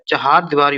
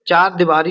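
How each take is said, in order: First: The first word has two syllables. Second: The first word has one syllable. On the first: The speaker calls it right. "चहार दीवारी होता है दोस्तों" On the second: The speaker calls it wrong. "चार दीवारी नहीं होता है"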